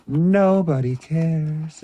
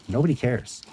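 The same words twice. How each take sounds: First: Slow, higher, drawn-out lament. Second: Said in the usual way. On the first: Acted. Lamenting that nobody wants Toy Biz mail-aways, slow and drawn out. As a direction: stretch it out slowly, mock sad. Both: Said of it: "repeated phrase".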